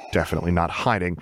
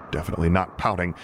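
First: "hiding" leaned on, quick in "definitely not hiding"; dry irony, press "hiding" and move on; quick "definitely not hiding" with weight on "hiding"; stress on hiding. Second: "not" leaned on in "definitely not pouting"; dry irony, press "not" hard; "definitely not" with the weight on "not"; stress on not. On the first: Narrator's ironic denial repeated. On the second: Narrator's ironic denial. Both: A narrator's reading.

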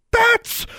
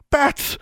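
First: Very high, loud warning scream; shrieked alarm, louder and higher; shouted. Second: High-pitched cry of alarm; startled, high exclamation; exclaimed. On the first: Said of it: "she shouted". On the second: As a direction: call it out suddenly, pitched way up. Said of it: "Alexandra exclaimed". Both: A narrator's reading.

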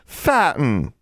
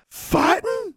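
First: Higher, slightly louder admission; raised-voice childish confession; speaking up. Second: Very high rising question; high-pitched incredulous echo; shocked echo. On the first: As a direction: own up a bit louder, falling at the end. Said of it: "more loudly". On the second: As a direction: squeak it back in disbelief. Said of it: "Constance and Forbearance echoed together". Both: A narrator's reading.

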